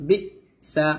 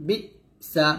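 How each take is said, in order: No difference in how they are said.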